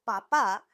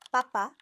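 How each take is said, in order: First: "papa" with the stress on the final syllable, pa-PÁ; stress on last syllable. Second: "papa" with the stress on the first syllable, PA-pa. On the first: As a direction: say "papa" rising onto the last PÁ. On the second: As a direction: say "papa" hitting the first PA, letting the second fall. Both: Shown as a demonstration. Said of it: "shows how crucial intonation is".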